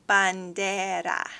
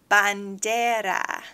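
Both takes have the same delivery.

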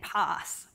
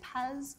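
First: The word is said with a broad Australian accent. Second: The word is said with an American accent. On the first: "the very Aussie way of saying it" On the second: "Talking to my colleagues in America, they tend to say PaaS"

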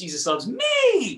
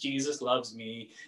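First: It is said in an excited, lively way. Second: It is said in a flat, plain way.

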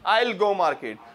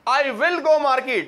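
First: I and will are merged into one syllable. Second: I and will are said as two separate words. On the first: "मिला के बोलो जरा" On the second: "कभी भी आई विल नहीं बोलते"

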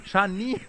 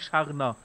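First: The second syllable sounds like 'neer'. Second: The second syllable sounds like 'ner'. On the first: The speaker calls it right. "Scharnier, nicht Scharner" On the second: The speaker calls it wrong. "nicht Scharner"

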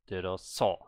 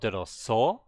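First: The end is louder and the pitch falls. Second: The pitch rises at the end. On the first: The speaker calls it right. "It just gets louder, but the tone actually goes down still" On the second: The speaker calls it wrong. "So it's not 들었어"

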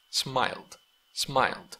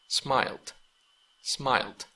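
No difference in how they are said.

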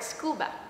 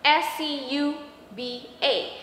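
First: It is said as one whole word. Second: Each letter is named separately. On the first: "we pronounce it like a word, really a word" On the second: "composed of first letter of the words"

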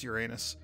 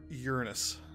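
First: It is pronounced like 'your anus'. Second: It is pronounced like 'urine-us'.

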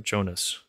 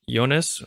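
First: The name begins with a hard J sound. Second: The name begins with a soft Y sound.

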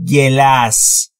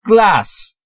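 First: A vowel is inserted between g and l. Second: The g and l are joined without vowel. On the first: The speaker calls it wrong. "نمیگم گلاس" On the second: The speaker calls it right. "بین G و L هیچ صدایی وجود نداره"

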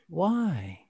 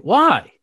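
First: The word sounds soft and caring. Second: The word sounds harsh and challenging. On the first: The speaker is showing concern for the other person. The speaker calls it right. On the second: The speaker is challenging the other person. The speaker calls it wrong.

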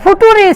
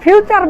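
First: It is read letter by letter, ending in 'ree'. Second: It is said normally, ending in 'cher'. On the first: "এফ ইউ ফু, টি ইউ টু, ফুটো, আর ই রি। এটা তো ফুটুরি sir" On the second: "আপনি ফিউচার বলছেন কেন?"

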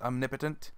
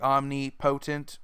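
First: The word is said smoothly as one unit. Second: The word is broken into separate parts. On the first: The speaker calls it right. "in reality it's just omnipotent" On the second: The speaker calls it wrong. "they kind of hyphenate the word there, and they make it like omnipotent"

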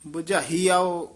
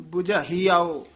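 The two takes are said the same way.

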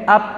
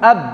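First: The final consonant sounds like a p. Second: The final consonant sounds like a clear b. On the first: The speaker calls it wrong. "Masalah nanti kok mirip p" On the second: The speaker calls it right. "Semuanya sudah bibir ketemu bibir, ya sudah betul"

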